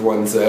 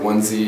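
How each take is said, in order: First: The letter is said the non-American way, zed. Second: The letter is said the American way, zee.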